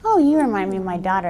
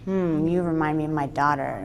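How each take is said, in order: First: It is said in an innocent, ordinary tone. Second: It is said in a sick, evil, leering tone.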